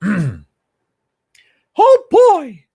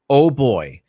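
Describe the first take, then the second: First: It is said in a Mickey Mouse voice. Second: It is said in his normal voice.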